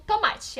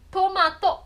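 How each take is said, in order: First: Said in the usual way. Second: "tomato" said Japanese style, to-ma-to, ending on an open o; Japanese pronunciation. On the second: Shown as a demonstration. Teacher giving the Japanese form of a Portuguese word. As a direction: say "tomato" with even syllables and a clear final o. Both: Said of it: "É tomato".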